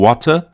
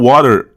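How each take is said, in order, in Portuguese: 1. É pronunciada com sotaque britânico. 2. É pronunciada com sotaque americano. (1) "Em inglês britânico" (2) "em inglês americano, vai ser um R aqui"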